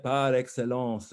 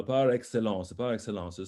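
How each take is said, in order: First: "par excellence" slow and relished; savored. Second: Said in the usual way. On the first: Shown as a demonstration. Coach urges singer to savor it, "par excellence" drawn out. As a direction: linger over "par excellence". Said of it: "savor that par excellence".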